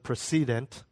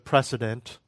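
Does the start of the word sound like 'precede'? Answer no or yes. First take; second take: yes; no. First: The start sounds like the word 'precede'. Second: The start does not sound like 'precede'.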